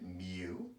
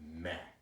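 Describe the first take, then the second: First: The word ends with an 'oo' vowel. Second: The word ends with an 'eh' vowel. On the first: This is how statisticians say it. "Statisticians pronounce it mu" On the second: This is how Greek speakers say it. "he pronounced it meh, like almost like M E H"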